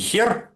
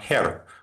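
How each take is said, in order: First: The first sound is a harsh, throaty kh. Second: The first sound is a soft, breathy h. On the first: The speaker calls it wrong. "Не Herr" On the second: The speaker calls it right. "Ха говорится воздушно"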